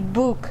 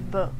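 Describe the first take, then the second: First: The vowel is a very strong u sound. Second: The vowel is a lighter, shorter u sound. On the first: The speaker calls it wrong. "Book with very strong u sound, which it's not correct" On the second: The speaker calls it right. "say book"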